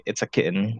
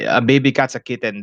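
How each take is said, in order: First: Soft American-accented "kitten", second vowel swallowed; quiet Americanized "kitten" with a swallowed ending. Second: Filipino-accented English, both syllables of "kitten" sounded. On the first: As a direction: say "kitten" as "kit'n", softly, American style. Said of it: "when I talk with them, I say". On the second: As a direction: say "kitten" with a clear second vowel, Filipino style. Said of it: "my accent comes back". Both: Shown as a demonstration.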